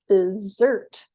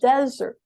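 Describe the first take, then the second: First: The stress is on the second syllable. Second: The stress is on the first syllable. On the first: A sweet food eaten after a meal. "it's stressed on the second syllable" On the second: A dry place. "whereas number one is desert"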